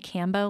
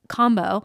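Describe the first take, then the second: First: The word rhymes with Rambo. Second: The word does not rhyme with Rambo. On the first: The speaker calls it wrong. "I kept saying Cambo like Rambo" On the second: The speaker calls it right. "but combo sessions"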